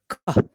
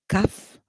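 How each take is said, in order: First: The vowel is a back 'o' sound. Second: The vowel is a central 'uh' sound. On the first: "or with the, the this vowel in here, which is o" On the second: "Either you say cuff with with the central vowel a"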